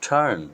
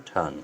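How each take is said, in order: First: টার্ন said higher with the r sounded; the wrong way, টার্ন with a clear r; wrong r-ful turn. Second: টার্ন said with a long vowel and no r; the right way, টার্ন without r; British turn. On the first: Teacher showing the rhotic টার্ন learners use. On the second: Teacher showing the British টার্ন without r. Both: Shown as a demonstration. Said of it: "এর উচ্চারণ করবেন টার্ন".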